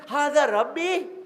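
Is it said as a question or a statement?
question. It is said as a questioning remark. He asks whether this could be his Lord. The speaker calls it right. "Ibrahim says"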